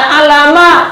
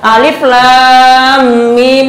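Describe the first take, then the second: First: The letters are blended into one short word. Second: Each letter is said separately by its name. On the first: The speaker calls it wrong. "bukan dibaca alama" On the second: The speaker calls it right. "Alif lam mim itu bukan dibaca alama"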